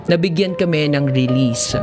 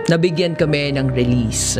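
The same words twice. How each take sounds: The two takes are said the same way.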